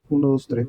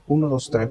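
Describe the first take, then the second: First: The voice has a soft, smooth filter. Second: The voice has a crisp, clear filter. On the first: "otro que se llama suave" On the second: "este se llama nítido"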